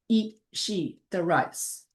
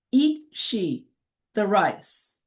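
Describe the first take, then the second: First: Slow, softer. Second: Said in the usual way. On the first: Shown as a demonstration. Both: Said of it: "So that becomes".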